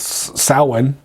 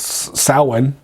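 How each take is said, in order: First: It is said with its Gaelic pronunciation. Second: It is said with its Gaelic pronunciation.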